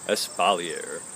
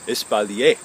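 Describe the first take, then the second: First: The word is pronounced the English way. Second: The word is pronounced the French way. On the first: It is the plain everyday form. "Or you can just say" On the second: It sounds pretentious. "the pretentious French pronunciation"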